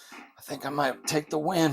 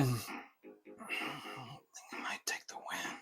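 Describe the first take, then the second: First: Said in the usual way. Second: Breathless whisper, much softer; hushed whisper. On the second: Real, not acted. Gamer whispers his hope of winning, hushed whisper. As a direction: whisper it softly so as not to jinx the win.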